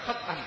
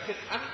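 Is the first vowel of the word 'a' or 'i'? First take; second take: a; i. First: The first vowel is an 'a' sound. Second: The first vowel is an 'i' sound. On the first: "bisa dibaca khat'an" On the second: "Bisa bisa dibaca khit'an"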